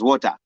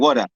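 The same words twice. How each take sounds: First: It is said with a Zambian accent. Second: It is said with an American accent. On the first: This is the way it is said at home. "we know it as water" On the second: This is the way Americans want it said. "now I found myself saying water"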